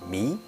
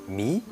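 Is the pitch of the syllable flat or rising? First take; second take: rising; rising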